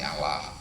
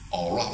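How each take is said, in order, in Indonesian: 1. Suku kata kedua punya vokal 'a'. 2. Suku kata kedua punya vokal 'o'. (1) "kalau Nasrani Allah" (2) "pakai pakai O lah dia Yahudi"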